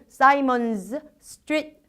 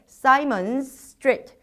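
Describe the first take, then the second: First: The two words are split with a break. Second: The two words run together with one long s. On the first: The speaker calls it wrong. "지금처럼 끊어 읽으시면 안 돼요" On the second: The speaker calls it right. "연결해서 읽으셔야"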